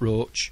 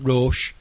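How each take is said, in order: First: The name rhymes with coach. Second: The name ends with a sh sound. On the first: The speaker calls it wrong. "it's not Roach" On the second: The speaker calls it right. "it's Roche"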